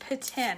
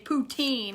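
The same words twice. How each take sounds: First: The word is pronounced the French way. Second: The word is pronounced the English way. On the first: The speaker calls it right. "I try to say it right because my neighbor and good friend Vicky is super French" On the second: The speaker calls it wrong. "like people at the restaurant do"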